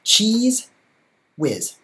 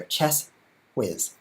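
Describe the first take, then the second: First: "Cheese" sung out high with a rising tune, then "whiz"; "Cheese whiz" with a mocking lift on "Cheese"; wrong name. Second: "Chess" level, then "whiz" dropping firmly; correct name. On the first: Showing viewers how fans mispronounce his name, "Cheese" pitched way up. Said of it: "Most people say it like this". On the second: Correcting viewers on his name, "Chess whiz" said plain and firm. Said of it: "but that's not right either". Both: Shown as a demonstration.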